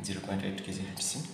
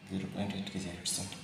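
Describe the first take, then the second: No difference in how they are said.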